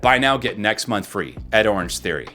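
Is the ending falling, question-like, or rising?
falling. The pitch falls at the end. The speaker sounds confident. "That goes down. That typically makes it sound more confident"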